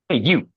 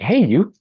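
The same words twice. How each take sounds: First: It sounds cold and rudely dismissive. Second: It sounds surprised and warmly friendly.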